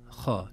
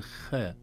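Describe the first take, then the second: First: خاء with a heavy, dark خ and backed vowel; تفخيم الخاء. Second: خاء wrongly thinned, with a light fronted vowel; ترقيق الخاء خطأً. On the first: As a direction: say خاء full-mouthed and heavy. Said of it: "الخاء حرف مفخم". (خاء بتفخيم واضح) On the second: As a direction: say خاء thin, like "khee-eh". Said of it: "لا نقول خاء". (خاء مرققة بإمالة الألف) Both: Shown as a demonstration.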